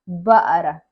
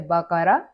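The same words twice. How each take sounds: First: The middle consonant is a glottal stop. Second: The middle consonant is a deep q sound. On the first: "They don't pronounce the qaf, they make it a a بقرة" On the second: "There are some countries they say بقرة"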